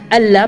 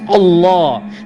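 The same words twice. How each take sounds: First: The double L is light and thin. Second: The double L is heavy and thick. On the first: The speaker calls it wrong. "we pronounce the name not as Allah" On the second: The speaker calls it right. "but as Allah. That heaviness is only for this name"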